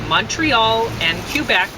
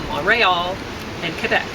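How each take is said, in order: First: They are said the common English Canadian way. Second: They are said the way local people say them. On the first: Most people across the country say it this way. "you're probably going to hear more people saying" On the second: People who live there say it this way. "That's not how it's said by the people who live there"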